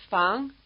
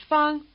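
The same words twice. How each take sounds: First: Fang lifted in pitch; rising tone. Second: Fang kept high and level. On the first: Teacher offers the second of two choices, rising tone. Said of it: "the rising tone surname Fang". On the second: Teacher offers the first of two choices, high tone. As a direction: hold Fang on one note. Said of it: "the high tone surname Fang". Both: Shown as a demonstration.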